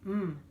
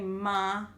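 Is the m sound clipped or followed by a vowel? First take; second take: clipped; followed by vowel. First: The m sound is clipped with no vowel. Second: The m sound is followed by a vowel. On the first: The speaker calls it right. "It's very precise" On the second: The speaker calls it wrong. "We don't say ma"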